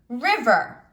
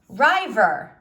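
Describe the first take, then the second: First: The first vowel is a short 'ih' sound. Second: The first vowel is a long 'eye' sound. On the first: The speaker calls it right. "so it is a closed syllable" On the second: The speaker calls it wrong. "The I in this word is, if I cut it here, is open. It would say rye"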